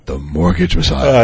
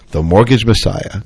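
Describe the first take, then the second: First: It is said in a much lower voice. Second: It is said in his normal voice.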